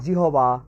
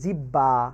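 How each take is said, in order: First: The middle is an h followed by b. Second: The middle is a doubled b sound. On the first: "আমরা উচ্চারণ করি জিহবা" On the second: "আমরা উচ্চারণ করি জিব্বা"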